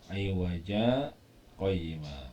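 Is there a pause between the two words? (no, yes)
yes. There is a short pause between the words. The speaker calls it right. "ini dihentikan sejenak dua detik"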